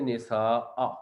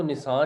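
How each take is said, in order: First: निसाअ with the final अ sounded at the end; correct reading. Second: निसा with a clipped ending and no final glottal; wrong reading. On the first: Teacher showing students how to pause on निसाअ, final अ sounded. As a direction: close निसाअ with a clear catch and vowel. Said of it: "को पढ़ेंगे निसाअ". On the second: Teacher showing students the wrong pause reading, निसा ending bare. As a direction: say निसा cut short, dropping the ending. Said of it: "निसा नहीं पढ़ेंगे". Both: Shown as a demonstration.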